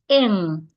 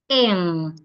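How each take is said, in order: The two takes are said the same way.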